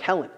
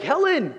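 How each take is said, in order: First: Said in the usual way. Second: High, thrilled call of the name; excited greeting. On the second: Acted. God greeting a new arrival in heaven, excited. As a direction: cry out the name in delighted welcome. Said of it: "I'm so excited you are here".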